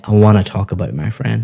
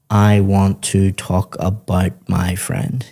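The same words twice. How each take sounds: First: Fast, "wanna" run together and words linked; connected speech. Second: Slow, every sound of "want to" pronounced separately, no linking; careful full form. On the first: Teacher showing a student native connected speech, fast linked "wanna". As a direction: glide through "wanna talk about" quickly. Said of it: "You'd say". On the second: Teacher showing a student what natives avoid, slow unlinked "want to". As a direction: spell out "I want to talk" slowly and unlinked. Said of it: "we wouldn't say". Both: Shown as a demonstration.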